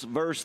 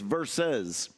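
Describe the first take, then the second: First: The word is said as one syllable, verse. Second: The word is said with two syllables, versus. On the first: The speaker calls it wrong. "for years I was going on T V and saying" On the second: The speaker calls it right. "it's versus"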